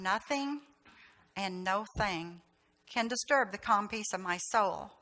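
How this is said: It is said quietly and calmly.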